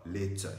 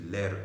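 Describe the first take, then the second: First: It is said with a British accent. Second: It is said with an American accent. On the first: The speaker calls it wrong. "Quand je veux parler à l'américaine, je ne dis pas later" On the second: The speaker calls it right. "Je dis later"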